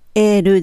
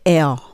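First: It ends with an added vowel sound. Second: It ends on a held L sound. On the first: The speaker calls it wrong. "L ではなくて" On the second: The speaker calls it right. "ベロの先を上の前歯の裏側にちょっと当てる感じでL って音が止まる"

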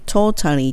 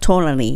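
First: The middle is said with a clear T. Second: The middle sounds soft and L-like. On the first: The speaker calls it wrong. "totally とは言わないです、ほぼほぼ。" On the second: The speaker calls it right. "totally ってなります。"

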